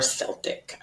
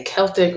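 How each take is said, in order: First: "Celtic" with a soft S sound at the start; soft C pronunciation. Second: "Celtic" with a hard K sound at the start; hard C pronunciation. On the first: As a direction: say "Celtic" as SEL-tik. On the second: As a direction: say "Celtic" as KEL-tik. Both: Shown as a demonstration. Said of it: "if you're supposed to say Celtic or Celtic".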